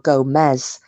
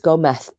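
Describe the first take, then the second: First: The final sound is a buzzing z. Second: The final sound is a soft th. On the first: The speaker calls it wrong. "because that was how it was spelled" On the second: The speaker calls it right. "the Z is pronounced like T H"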